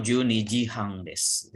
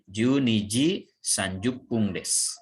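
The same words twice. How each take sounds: First: Slow, say "hang" as the short form for half past; han reading. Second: Slow, say "sanjupung" fully for thirty minutes; sanjupung reading. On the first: Teacher shows the alternative reading of the time, slow and clear. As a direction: read "Juni ji hang desu" slowly with the short "hang". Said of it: "sanjupung boleh dibaca hang". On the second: Teacher shows the first way to read the time, slow and clear. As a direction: spell out "Juni ji sanjupung desu" slowly, syllable by syllable. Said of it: "boleh dibaca sanjupung ya". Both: Shown as a demonstration.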